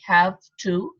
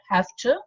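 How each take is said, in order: First: The words are separate, with a v sound. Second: The words run together, with an f sound. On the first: "if pronounced separately" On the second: "when they are pronounced together"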